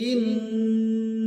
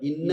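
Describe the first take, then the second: First: The doubled n is held with nasal hum. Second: The doubled n is clipped short. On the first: The speaker calls it right. "ഇന്ന എന്ന് പറയണം. ഗുന്ന ചെയ്യുക" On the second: The speaker calls it wrong. "പറഞ്ഞു പോവാതെ"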